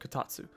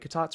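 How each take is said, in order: First: The final su sound is fully pronounced. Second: The final su sound is dropped.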